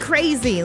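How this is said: It is said in an excited, delighted tone. Something will be a lot of fun. "oh, so fun"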